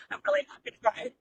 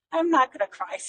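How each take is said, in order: First: High, breathy laugh-cry, fighting tears; a real teary laugh as the emotion breaks through. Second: Said in the usual way. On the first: Real, not acted. Telling her audience about her dad, choked up, laughing through tears.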